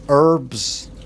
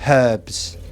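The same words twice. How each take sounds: First: It is said in an American accent. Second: It is said in an English accent. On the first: "American actor anyway, and she was saying" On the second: "he's English, the actor, and he was like"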